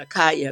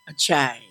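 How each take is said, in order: First: The middle consonant is a 'k' sound. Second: The middle consonant is a 'ch' sound. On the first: The speaker calls it wrong. "everybody misspelled pronounces it because they want to call it Akaya" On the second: The speaker calls it right. "A K Y A A is pronounced ch, ch, Achai"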